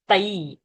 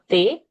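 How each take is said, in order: First: The vowel glides as the diphthong 'ai'. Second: The vowel is a plain, single 'e' sound. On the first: The speaker calls it right. "Aiki, Ai Matra is there" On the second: The speaker calls it wrong. "a common mistake where people would say Teja Satmika, not Te"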